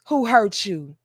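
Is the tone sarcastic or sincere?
sincere. It sounds sincere and caring.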